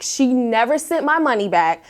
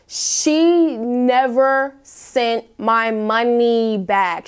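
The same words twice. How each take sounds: First: Said in the usual way. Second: She never sent my money back, dragged out slowly word by word; slow emphatic stress. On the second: Real, not acted. Telling her viewers about the unpaid deposit, slow and emphatic. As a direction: spell out each word slowly, starting on "she".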